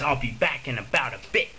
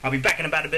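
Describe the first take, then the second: First: The sentence is said at a normal speed. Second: The sentence is said very fast.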